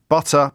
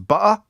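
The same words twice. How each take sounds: First: The middle t sound is clearly pronounced. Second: The middle t sound is dropped.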